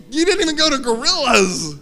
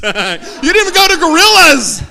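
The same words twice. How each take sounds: First: Said in the usual way. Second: Much louder, higher, laughing through it. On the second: Real, not acted. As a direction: burst out laughing at the crowd.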